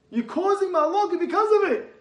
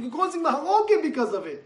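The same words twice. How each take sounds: First: Higher, louder repeat hammering "because". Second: Mahalokim pressed hard, preacher style; stress on mahalokim. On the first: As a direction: drive it home. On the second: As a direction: lean into "mahalokim". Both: Acted. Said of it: "repeated louder".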